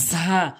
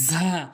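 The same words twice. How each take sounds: No difference in how they are said.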